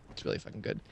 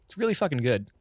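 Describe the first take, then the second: First: Hushed, whispered aside; whispered repeat. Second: Said in the usual way. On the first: Real, not acted. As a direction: repeat it under your breath for emphasis. Hushed repeat of the same praise.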